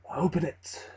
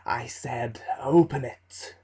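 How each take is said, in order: First: A quiet menacing order from the shadows; ominous dark figure. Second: Menacing repeat. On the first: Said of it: "said the dark man". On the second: Dark figure repeats his order. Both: Acted.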